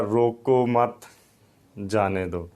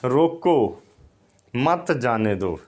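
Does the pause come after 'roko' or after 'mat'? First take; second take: after mat; after roko. First: The pause comes after the word 'mat'. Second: The pause comes after the word 'roko'. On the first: Do not stop them; let them go. "पढ़ने वाला जो है वो पढ़ रहा था" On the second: Stop them; do not let them go. "अगर मुझे रोकना मकसूद था तो यहाँ अलामत होती"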